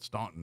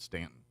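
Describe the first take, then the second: First: The first syllable sounds like 'stawn'. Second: The first syllable sounds like 'stan'. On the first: This marks the speaker as an outsider. The speaker calls it wrong. "that was like the code. You ain't from around here" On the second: This is how the locals say it. The speaker calls it right. "They called it Stanton"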